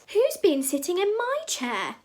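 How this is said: It is said in a medium-sized voice. "cried Mama Bear in her medium-sized voice"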